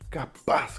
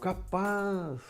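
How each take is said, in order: First: It sounds like a firm denial. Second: It sounds like a doubtful, questioning reaction.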